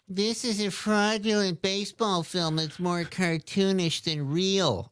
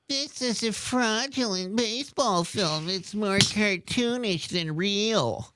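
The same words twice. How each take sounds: First: It is read in a voice with less drama. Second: It is read in a voice with more drama. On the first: "I'm adding the voice" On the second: "With more drama this time"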